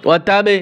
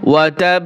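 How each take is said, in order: First: The final b bounces out with an added vowel. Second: The final b is held closed without a vowel. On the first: The speaker calls it wrong. "এভাবে কলকলা করা যাবে না" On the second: The speaker calls it right. "ওয়াতাব একটু ধরে বসতে হবে"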